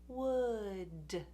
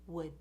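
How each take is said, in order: First: The final D is audibly released. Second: The final D is held without release. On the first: "if you release the D, your tongue will touch and release" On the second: "we just hold it, we don't release"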